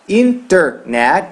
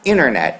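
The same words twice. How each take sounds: First: The T after the N is clearly pronounced. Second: The T is dropped, blending into the N. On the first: This is the form the listener expects to hear. "você está querendo escutar internet" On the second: This is the form speakers actually use. "você vai escutar internet"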